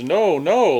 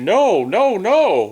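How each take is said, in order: First: It is said in a bored way. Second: It is said with excitement.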